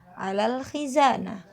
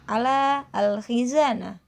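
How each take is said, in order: First: The article is joined to the word before. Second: The article is said as a separate word.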